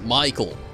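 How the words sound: The first vowel sounds like 'eye'. This is how most people say it. "a normal person uh, in America or let's say Europe would say my name as Michael, uh, pronouncing the I almost at a Y sound"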